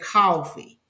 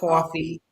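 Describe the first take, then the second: First: It is said in a Georgia accent. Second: It is said in a Brooklyn accent.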